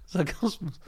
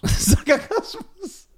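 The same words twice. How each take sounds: First: Said in the usual way. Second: Sarkasmus drawn out very slowly, high and laughing, mimicking the stumble; mocking repeat. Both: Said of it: "Sarkasmus (friend stumbles on word)".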